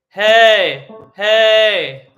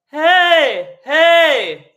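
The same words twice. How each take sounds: First: It is said at a low bass pitch. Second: It is said high with a bright tenor sound.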